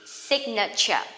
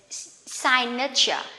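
First: The first part sounds like sig, not sign. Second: The first part sounds like the word sign. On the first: The speaker calls it right. "This is signature" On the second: The speaker calls it wrong. "this one usually people will pronounce they is signature"

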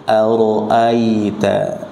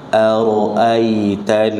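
Both takes have the same delivery.

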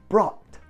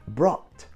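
Both takes have the same delivery.

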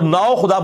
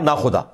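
First: The first part is the full form nao. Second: The first part is shortened to na.

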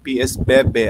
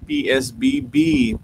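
First: The final letters are read as local Indonesian names. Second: The letters are read with English letter names.

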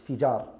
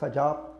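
First: The first vowel is an i sound. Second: The first vowel is an a sound. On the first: The speaker calls it right. "but it's Fijar" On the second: The speaker calls it wrong. "not Fajar"

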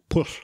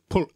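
First: The double L sound is voiceless. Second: The double L sound is voiced. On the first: The speaker calls it right. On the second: The speaker calls it wrong.

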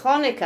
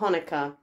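First: It begins with a harsh, throaty scraping sound. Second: It begins with a soft, plain h sound. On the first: The speaker calls it right. "Like you've got the phlegm" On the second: The speaker calls it wrong. "not Hanukkah"

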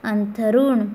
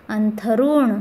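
Both takes have the same delivery.

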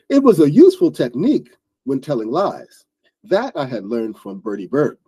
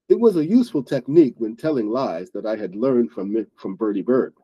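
First: The sentence is read with the fitting tone. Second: The sentence is read without the fitting tone. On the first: The speaker calls it right. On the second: The speaker calls it wrong.

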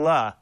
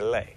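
First: The word ends in a vowel, with no s. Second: The word ends with an s sound. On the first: "I've been saying la, which is wrong" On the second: "With the S, you say les"

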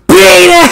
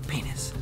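First: The word is screamed loudly. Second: The word is said quietly.

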